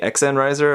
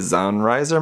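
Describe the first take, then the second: First: The XN part is spelled out as letters. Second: The XN part is said as one word. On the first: "I say X N riser" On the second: "a lot of people say Zon riser maybe"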